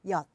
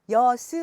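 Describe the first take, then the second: First: The word is said as one closed syllable. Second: The final consonant is split into a second syllable. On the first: The speaker calls it right. "하나의 모음의 음절로 사각형으로 표기해 볼게요" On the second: The speaker calls it wrong. "이 시옷을 따로 발음해서 여스 하시면"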